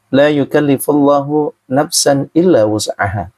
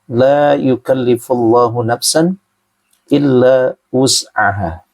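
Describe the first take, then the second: First: It is recited at an ordinary pace. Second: It is recited slowly and deliberately. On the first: The words are just read without reflection. "biasa aja" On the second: The words are read with deep reflection. "kali ini pelan-pelan"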